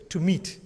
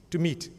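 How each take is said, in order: Both takes have the same delivery.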